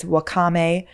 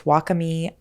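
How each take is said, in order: First: Wakame said wuh-KAH-may; first pronunciation guess. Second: Wakame said WAH-kuh-mee; alternative pronunciation guess. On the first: Vlogger lists sea vegetables, guessing wakame as wuh-KAH-may. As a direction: stress the middle of wakame, ending in "may". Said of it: "or maybe it's wakame". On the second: Vlogger second-guesses herself, wakame as WAH-kuh-mee. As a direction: stress the start of wakame, ending in "mee". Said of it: "I don't know". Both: Shown as a demonstration.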